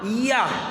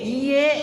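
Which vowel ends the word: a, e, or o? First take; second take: a; e. First: The word ends with an a vowel. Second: The word ends with an e vowel. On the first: "Ada juga pakai A" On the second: "pakai E"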